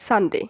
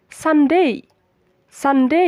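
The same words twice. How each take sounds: First: "সানডে" with a short, unlifted "de"; common pronunciation. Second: "সানডে" rising onto a full "DEY" glide; correct pronunciation. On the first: Teacher quoting the usual habit, everyday pronunciation. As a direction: say "সানডে" casually, ending on a pure e. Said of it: "আমরা normally উচ্চারণ করি সানডে". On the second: Teacher modelling for learners to repeat, careful correct pronunciation. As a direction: lift and lean on the last syllable of "সানডে", san-DEY. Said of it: "but এটা সঠিক উচ্চারণ হচ্ছে". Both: Shown as a demonstration.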